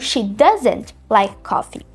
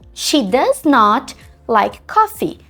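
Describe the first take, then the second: First: Does not is contracted into one word. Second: Does not is said as two separate words. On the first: The speaker calls it right. "Essas contrações, elas são muito importantes" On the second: The speaker calls it wrong. "fica muito pausado, fica robótico"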